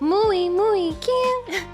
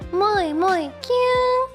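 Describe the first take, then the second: First: The first syllable sounds like 'mooey'. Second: The first syllable sounds like 'moy'. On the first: The speaker calls it right. "Mui though" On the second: The speaker calls it wrong. "not moe"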